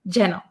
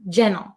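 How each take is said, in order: First: The T sound in the middle is dropped. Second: The same.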